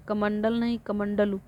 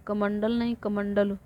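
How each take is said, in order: Both takes have the same delivery.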